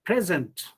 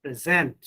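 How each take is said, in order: First: "present" stressed on PRE, as a noun; first-syllable stress. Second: "present" stressed on ZENT, as a verb; second-syllable stress. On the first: Teacher contrasting noun with verb, "present" stressed on PRE. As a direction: say "present" as PREZ-ent. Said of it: "As noun". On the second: Teacher contrasting verb with noun, "present" stressed on ZENT. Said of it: "but as verb". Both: Shown as a demonstration.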